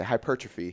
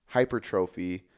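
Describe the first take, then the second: First: Hypertrophy said hy-PER-truh-fee; own pronunciation. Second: Hypertrophy said hyper-TROH-fee; others' pronunciation. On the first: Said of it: "That's what I say". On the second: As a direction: spell out the long TROH in hypertrophy. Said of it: "some people say". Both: Shown as a demonstration.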